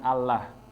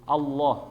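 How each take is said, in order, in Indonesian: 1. Bunyi L-nya tipis. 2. Bunyi L-nya tebal. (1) "bukan Allah" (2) "dibacanya tafkhim, tebal"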